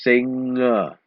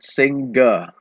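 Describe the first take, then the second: First: The ng is said without a hard G. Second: A hard G sound follows the ng. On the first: The speaker calls it right. "Don't pronounce the G sound" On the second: The speaker calls it wrong. "It's not singer"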